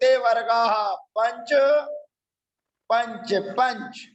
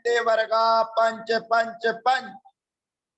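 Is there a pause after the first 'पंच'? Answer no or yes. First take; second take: yes; no. First: It pauses after the first 'पंच'. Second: It runs straight through without a pause. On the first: The speaker calls it right. "थोड़ा stoppage दीजिए" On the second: The speaker calls it wrong. "इस प्रकार से उच्चारण करना उपयुक्त नहीं है"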